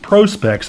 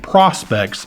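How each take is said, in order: First: The first syllable sounds like 'pro' in 'professional'. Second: The first syllable does not sound like 'professional'. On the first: The speaker calls it right. "as in professional specifications" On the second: The speaker calls it wrong. "I've been mispronouncing Prospex"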